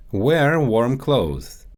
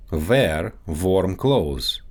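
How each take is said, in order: First: Said in the usual way. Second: Russian accent, "Wear warm" said as "vear varm"; Russian accent, slow, with V in place of each W. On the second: Shown as a demonstration. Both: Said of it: "W and V sounds".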